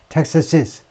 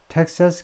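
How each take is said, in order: First: The word ends with an extra iz syllable. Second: The word ends with a plain s sound. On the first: It is clearly heard as the possessive. The speaker calls it right. "교육받은 사람답게 주격과 소유격을 들었을 때 구별이 되도록" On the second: It sounds like the subject form, not a possessive. The speaker calls it wrong. "주격처럼 텍사스 컨servative movement라고 발음하는 사람도 있긴 있어요"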